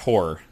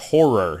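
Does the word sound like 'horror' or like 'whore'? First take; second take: whore; horror. First: The last syllable fades, sounding like whore. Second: Both syllables are clear, sounding like horror. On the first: The speaker calls it wrong. "not horror. We're not watching Pretty Woman" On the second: The speaker calls it right. "that's horror"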